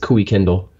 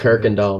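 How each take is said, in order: First: The name begins with a 'Kui' sound. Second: The name begins with a clear 'Kirk' sound. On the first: This is how a navigation device reads the name. The speaker calls it wrong. "if you put it on your G P S, it says Kui Kindle" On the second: This is how locals say the road name. The speaker calls it right. "Kirkendall, man"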